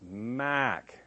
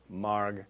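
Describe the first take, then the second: First: It is said in the speaker's hometown pronunciation. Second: It is said in the speaker's present-day pronunciation. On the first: "Where I grew up, ... It was pronounced Mac" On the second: "it was not pronounced this way"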